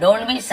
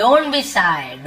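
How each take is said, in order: First: Said in the usual way. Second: Don't be shy drawn out word by word; slow model phrase. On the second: Shown as a demonstration. Teacher slowly shows students how to read Don't be shy. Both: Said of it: "ऐसे shy ऐसे पढ़ते हैं".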